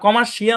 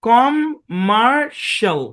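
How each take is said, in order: First: The ending has two syllables, 'shee-al'. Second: The ending is a single syllable, 'shal'. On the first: The speaker calls it wrong. "কমার্শিয়াল না।" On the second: The speaker calls it right. "শাল এরকম হয়।"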